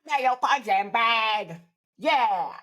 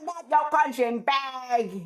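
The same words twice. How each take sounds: First: Slow, higher grandma voice; a lightly voiced scrappy grandma; grandma repeating her new anthem; imitating grandma. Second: High, slow put-on old lady voice; grandma singing along to a record she loves; imitating grandma. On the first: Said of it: "she was like". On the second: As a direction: drawl it out like a feisty grandma. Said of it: "she goes".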